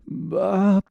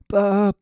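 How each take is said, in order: First: The voice is gritty and rough. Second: The voice is husky and a little windy.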